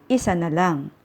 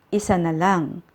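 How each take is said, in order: No difference in how they are said.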